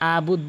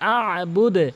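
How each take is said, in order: First: The opening 'a' is said lightly without pressure. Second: The opening 'a' is pressed hard with emphasis. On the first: The speaker calls it wrong. "অধিকাংশ লোক আবুদ বলে" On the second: The speaker calls it right. "বলতে হবে আবুদ। ... আ চাপ দিয়ে বলবেন অবশ্যই।"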